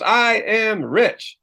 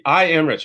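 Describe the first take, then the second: First: High, slow unconvinced crowd chant; doubtful crowd. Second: Said in the usual way. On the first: Retold or imitated. Seminar crowd reciting an affirmation they don't believe, slow and high. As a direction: drag it out like a crowd that doesn't buy it. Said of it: "Everybody goes". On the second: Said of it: "and say".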